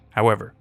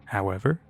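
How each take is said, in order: First: "However," said low and left hanging on a fall; the agent pauses ominously on "However,"; trailing statement. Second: "However?" echoed quietly, rising at the end; puzzled question. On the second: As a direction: softly prompt him to go on with "However?". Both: Acted.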